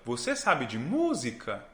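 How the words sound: The pitch moves melodically like a question. "Eu estou fazendo uma melodia com a minha voz"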